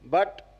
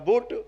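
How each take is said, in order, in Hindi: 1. स्वर 'cut' जैसा है। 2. स्वर 'boot' जैसा है। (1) "बोले बी यू टी बट" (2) "अब हो जाएगा बुट"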